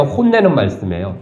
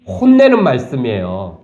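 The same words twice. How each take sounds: First: 혼내는 말씀이에요 asked with a questioning lilt; asking question. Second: 혼내는 stressed, 말씀이에요 stated with a settled fall; firm answer. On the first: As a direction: pose it as a question to the congregation. (묻는 억양으로 "혼내는 말씀이에요?") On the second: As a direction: answer your own question decisively. (단호하게 답하듯 "혼내는 말씀이에요.") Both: Shown as a demonstration.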